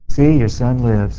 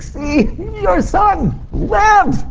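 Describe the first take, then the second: First: It is said in a flat, unemotional tone. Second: It is said in a joyful, emotional tone. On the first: The speaker calls it wrong. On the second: The speaker calls it right. "I think it was like, ... there was some, you know, joy there"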